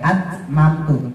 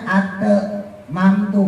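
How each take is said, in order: First: The t before m is held still, no bounce. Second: The t before m bounces with an echo. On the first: The speaker calls it right. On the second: The speaker calls it wrong.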